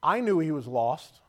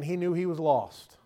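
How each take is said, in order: First: "I knew" punched louder and drawn out; stress on "I knew". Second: "he knew" given the weight, then falling; stress on "he knew". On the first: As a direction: lean slowly on "I knew", voice rising. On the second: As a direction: land firmly on "he knew". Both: Real, not acted. Contrast of who knew.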